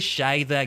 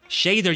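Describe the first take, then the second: First: The name is said in a Japanese-like way. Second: The name is said in an English-like way. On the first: "getting closer to the Japanese pronunciation there" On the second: "you could say"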